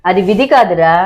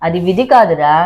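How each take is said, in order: Both takes have the same delivery.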